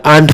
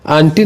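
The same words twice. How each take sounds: First: आंट ending on a hard t, no "ee"; correct pronunciation. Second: Two syllables in आंटी, ending in "ee"; wrong pronunciation. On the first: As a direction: say आंट as one syllable, AANT. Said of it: "आंट पढ़ना है". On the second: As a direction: say आंटी with a final long "ee", AAN-tee. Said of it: "आंटी नहीं इसको पढ़ना है". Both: Shown as a demonstration.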